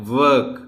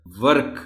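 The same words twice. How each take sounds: First: ورک begun with a rounded W, drawn out; ورک opening on rounded lips, stretched; second-way pronunciation. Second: ورک begun with a V-like sound, teeth on lip; ورک with a V-like opening sound; first-way pronunciation. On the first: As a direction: demonstrate ورک slowly with a rounded W. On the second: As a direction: demonstrate ورک starting on a V-like W. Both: Shown as a demonstration. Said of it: "pronunciation ادا کر کے بتاتا ہوں".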